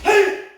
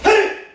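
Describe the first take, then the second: No difference in how they are said.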